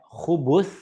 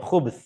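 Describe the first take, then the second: First: There is a u vowel after the b. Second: There is no vowel after the b. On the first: The speaker calls it right. "dengan baris dhammah pada huruf ba" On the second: The speaker calls it wrong. "Huruf ba boleh sukun"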